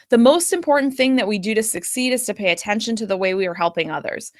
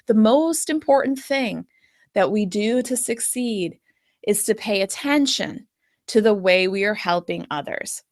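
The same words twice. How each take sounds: First: It is quick, with no pauses between phrases. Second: It is slower, with pauses between phrases. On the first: The key point does not stand out. The speaker calls it wrong. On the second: The key point stands out to the listener. The speaker calls it right.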